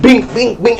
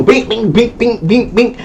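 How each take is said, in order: First: High mock punch noises; punch sound effects. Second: Higher mock punch sounds, rapid fire; rapid punch noises. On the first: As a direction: sound out each hit. Imitating own punches. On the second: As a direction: beat out a flurry of hits.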